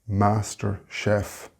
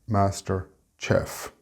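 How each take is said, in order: First: Chef begins with a sh sound. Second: Chef begins with a ch sound. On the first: The speaker calls it right. "but a sh sound" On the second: The speaker calls it wrong. "not master chef"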